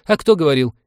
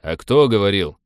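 First: High, loud retort; protesting navigator, pitched up and louder; indignant navigator. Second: Irritated retort at natural pitch; testy pilot, firing back; snappish. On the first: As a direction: throw it back in a raised, high voice. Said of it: "привычно начал оправдываться навигатор". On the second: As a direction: bite back at the accusation. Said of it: "окрысился Винни". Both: A narrator's reading.

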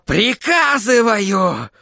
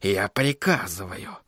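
First: High, drawn-out cry; furious command. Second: Low, slow, soft command; whispering. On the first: Sorcerer ordering crystal to obey, furious. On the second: Sorcerer giving his crystal an order, whispering. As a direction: give the order in a hushed voice. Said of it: "прошептал он". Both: A narrator's reading.

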